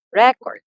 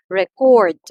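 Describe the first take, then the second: First: RE-cord, "record" punched loud on the first syllable; noun stress. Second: Re-CORD, "record" loud on the second syllable; verb stress. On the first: Teacher gives a noun example, "record" stressed on first syllable. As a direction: hit the front of "record" hard. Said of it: "the first syllable". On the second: Teacher gives a verb example, "record" stressed on second syllable. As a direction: drive hard into the last syllable of "record". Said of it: "emphasis is on the second syllable". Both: Shown as a demonstration.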